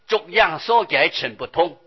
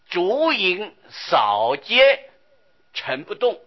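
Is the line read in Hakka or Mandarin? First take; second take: Hakka; Mandarin. First: It is read in Hakka Chinese. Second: It is read in Mandarin Chinese. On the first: The speaker calls it right. "我们客家话念起来很好" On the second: The speaker calls it wrong. "总觉得这个国语啊磕磕巴巴，念得很不调顺啊"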